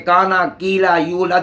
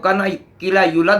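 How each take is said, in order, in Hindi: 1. स्वर लंबे खींचकर बोले जाते हैं। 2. स्वर छोटे काटकर बोले जाते हैं। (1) "काना कीला यूलद में अलिफ वाव या" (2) "अलिफ वाव या को अदा ना किया जाए तो"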